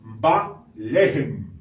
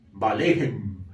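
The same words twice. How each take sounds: First: "ba lehem" sounded out slowly, with a falling stress on "ba"; Hebrew reading. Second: "ba lehem" repeated lower and smoothly, falling on "lehem"; Hebrew repeat. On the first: Teacher first reading "ba lehem" slowly to the class. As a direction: read "ba lehem" slowly, leaning on "ba". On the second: Teacher repeating "ba lehem" lower so the class can follow. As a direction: say "ba lehem" again lower, in one smooth flow. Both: Shown as a demonstration. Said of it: "Entonces sería".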